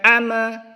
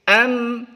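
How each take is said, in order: First: The final m is released with a vowel. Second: The final m is held with no release. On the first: The speaker calls it wrong. "Bukan ama, ... bukan seperti itu" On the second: The speaker calls it right. "Tapi am"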